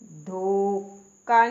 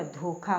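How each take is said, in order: First: धोखा slow and loud, unaspirated, dho-ka; wrong pronunciation. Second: धोखा with breathed kh, dho-kha; correct pronunciation. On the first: Teacher showing the mistake, धोखा stretched as dho-ka. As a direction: drag धोखा out with a k for kh. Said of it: "धोखा नहीं होता". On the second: Teacher correcting learners, धोखा said as dho-kha. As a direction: aspirate the kh in धोखा. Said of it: "धोखा होता है". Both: Shown as a demonstration.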